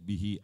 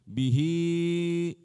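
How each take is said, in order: First: The final vowel is said short. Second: The final vowel is said long. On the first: The speaker calls it wrong. "Sering-sering saya membaca bihi as" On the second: The speaker calls it right. "Hi-nya agak panjang"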